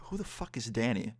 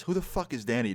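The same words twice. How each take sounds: First: Softer, puzzled aside to oneself; inner thought. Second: Lightly imitated friend asking outright; friend speaking aloud. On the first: Retold or imitated. Narrator silently wonders who Danny is, softer inner thought. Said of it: "thinking to myself". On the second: Friend answers the man confronting him, said aloud. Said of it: "that's what my friend says".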